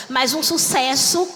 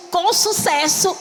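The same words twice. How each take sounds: First: Said in the usual way. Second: Com sucesso, with com drawn out slow and rising; stress on com. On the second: Shown as a demonstration. Preacher to church, stretching com in com sucesso. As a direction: lean hard on com, lift it and hold it.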